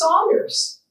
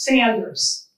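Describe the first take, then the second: First: The first vowel sounds like in 'sauce'. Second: The first vowel sounds like in 'sand'. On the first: The speaker calls it wrong. "half the population thinks it's Saunders" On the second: The speaker calls it right. "it rhymes with Michiganders"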